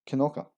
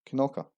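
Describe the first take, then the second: The two takes are said the same way.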